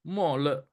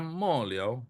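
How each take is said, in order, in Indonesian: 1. Suku kata kedua diucapkan le. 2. Suku kata kedua diucapkan liao. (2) "ini bisa mo liao"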